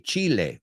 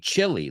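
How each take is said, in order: First: It is said with a Spanish pronunciation. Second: It is said like the English word chilly. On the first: The speaker calls it wrong. "we don't say Chile" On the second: The speaker calls it right. "We say chili, like frío"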